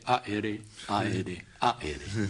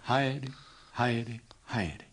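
First: The h is dropped, as Ruka's people say. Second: Each word begins with an h sound.

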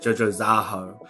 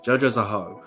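First: The stress falls on the 'Za' syllable. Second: The stress does not fall on 'Za'.

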